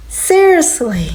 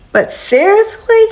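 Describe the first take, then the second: First: Slower, falling, drawn-out seriously; weary disbelief. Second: Can you believe this, rising high; incredulous. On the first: Tenant giving up on the landlord, slow weary disbelief. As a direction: let it sag in resignation. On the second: Tenant fed up with landlord, incredulous high question. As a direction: pitch jumps way up on a disbelieving question. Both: Real, not acted. Exasperated at broken smoke detector.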